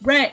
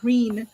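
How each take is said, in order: First: The vowel is a short 'eh' sound. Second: The vowel is a long 'ee' sound. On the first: The speaker calls it right. "no, it's Ren. It's R E N" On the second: The speaker calls it wrong. "It's clearly not Reen"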